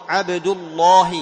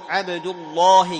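Both takes have the same delivery.

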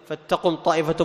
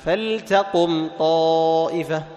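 First: The L is merged into the following T. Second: The L is clearly pronounced before the T. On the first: The speaker calls it wrong. "انتبه يا أيها القارئ أن تدغم عليه، ما تقول" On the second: The speaker calls it right. "لا، تظهر، تظهر لام الفعل عند التاء"

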